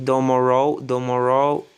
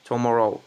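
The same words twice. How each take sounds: First: "tomorrow" said as "domorrow", the T flapped to a D. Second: "Tomorrow" said with a clean, crisp T; clear T. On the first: Teacher showing how fast speakers turn the T of "tomorrow" into a D. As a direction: soften the T of "tomorrow" into a D. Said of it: "le T comme un D". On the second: Teacher insisting that the real word "Tomorrow" has a clear T. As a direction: say "Tomorrow" with a proper T, not a D. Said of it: "C'est un T, en fait". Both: Shown as a demonstration.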